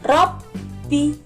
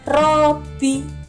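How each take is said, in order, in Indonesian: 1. Bunyi b ditekan dan dibaca panjang. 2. Bunyi b pendek, tidak ditekan. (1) "ditekan dulu nggih" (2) "tidak boleh"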